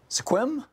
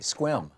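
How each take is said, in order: First: A vowel is sounded after the first S. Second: No vowel is sounded after the first S. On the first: The speaker calls it wrong. "am I saying that right" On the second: The speaker calls it right. "like there's no E in it"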